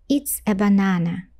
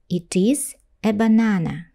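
First: It is contracted into one syllable, it's. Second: It is said as two separate full words.

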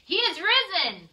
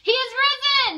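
First: It is said at normal volume. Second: It is said loudly, in an outside voice.

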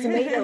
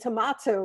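First: It is said in an American accent. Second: It is said in a British accent.

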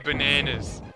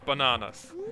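First: The vowels are flat, not 'ah' sounds. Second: The vowels are broad open 'ah' sounds. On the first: The speaker calls it wrong. "I kind of hate it. When people say bananas" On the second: The speaker calls it right. "There's like three A's in there. Pronounce them as A's, or as R's"

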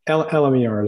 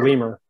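First: It is spelled out letter by letter. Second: It is said as one word, like lemur. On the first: It is the more professional name. "LMER is probably more professional" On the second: It is a playful, informal name. "I always call it lemur"

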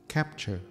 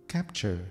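Both takes have the same delivery.

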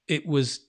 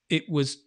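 Both takes have the same delivery.

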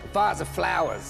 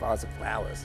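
First: It is said more loudly. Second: It is said more quietly.

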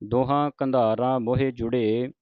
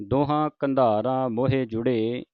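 Both takes have the same delivery.

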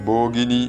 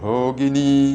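First: The first consonant is a plain, unaspirated b. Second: The first consonant is a breathy, aspirated bh. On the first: The speaker calls it wrong. "അതല്ലാതെ ഭോഗിനി എന്നും ചൊല്ലരുത്" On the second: The speaker calls it right. "ഇവിടെ ഭ ശ്രദ്ധിക്കണം"

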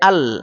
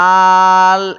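First: The vowel is short and quick. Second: The vowel is drawn out long. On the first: The speaker calls it right. "হরকতের উচ্চারণ তাড়াতাড়ি পড়িতে হয়, টানা যাবে না" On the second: The speaker calls it wrong. "আল এমন বলবো না"

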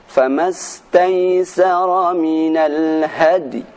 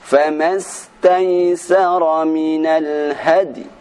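Both takes have the same delivery.

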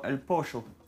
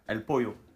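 First: The double L sounds like a 'sh'. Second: The double L sounds like a 'y'. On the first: "En argentine, ils font el pocho" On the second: "au lieu de dire les yo"

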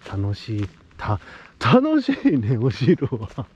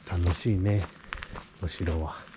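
First: It is said cheerfully, with obvious enthusiasm. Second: It is said flatly, without much enthusiasm. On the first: The speaker calls it right. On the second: The speaker calls it wrong.

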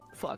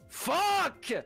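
First: It is said in a calm, plain way. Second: It is said loudly and angrily.

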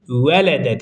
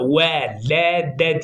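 First: It is said quickly, syllables run smoothly together. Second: It is said slowly, each syllable drawn apart. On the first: This is how the word is normally read. The speaker calls it right. "Velede diye okunur" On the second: The sounds are drawn out so each letter and vowel can be heard. The speaker calls it wrong. "Yoksa velede diye okunmaz"

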